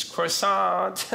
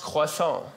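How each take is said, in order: First: Croissant with a hard American R and a sounded T; mispronounced French. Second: Croissant said the French way, "kwa-SON"; correct French pronunciation. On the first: Retold or imitated. American girl attempting French with Armando, croissant mispronounced. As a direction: mangle croissant as "kroh-SAHNT". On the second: Shown as a demonstration. Comedian correcting the girl's French, croissant pronounced "kwa-SON". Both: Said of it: "It's pronounced croissant".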